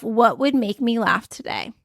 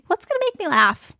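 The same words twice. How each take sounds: First: Said in the usual way. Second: Pitched well up, bright and silly; a high playful take on the question. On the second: Shown as a demonstration. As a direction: ask it again in a high, playful voice.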